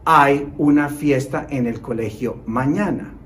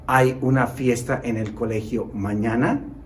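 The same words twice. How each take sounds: First: The pitch stays level or falls at the end. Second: The pitch rises higher at the end. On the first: It is a statement. "In the first one, we pronounce" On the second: It is a question. "I will switch to a higher intonation at the end"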